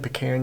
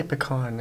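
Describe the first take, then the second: First: Pecan with a short flat A, puh-KAN. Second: Pecan with an open AH, puh-KAHN. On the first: Camper teasing viewers who say it differently, pecan as puh-KAN. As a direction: make the end of pecan rhyme with "ran". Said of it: "if you've been saying pecan". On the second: Camper giving his own preferred way, pecan as puh-KAHN. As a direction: make the end of pecan rhyme with "on". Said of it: "I say pecan". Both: Shown as a demonstration.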